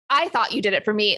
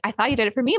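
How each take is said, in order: First: It is said in an angry tone. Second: It is said in a catty, snide tone. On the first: She is furious that it was clearly not true. "could do it in like actual anger" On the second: She knows it is not true and is needling. "you could do it in like a bitchy way"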